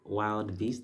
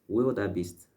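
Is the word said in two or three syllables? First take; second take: two; three. First: The word is said as two syllables. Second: The word is said with three syllables. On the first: The speaker calls it wrong. "I would have pronounced it as a wild wild beast" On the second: The speaker calls it right. "I learned that some other time"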